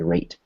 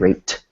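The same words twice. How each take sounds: First: The final T is soft, short and cut off. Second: The final T is released hard and clearly. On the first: The speaker calls it right. "we want a soft T" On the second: The speaker calls it wrong. "which would be a hard T"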